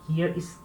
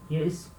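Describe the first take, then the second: The two takes are said the same way.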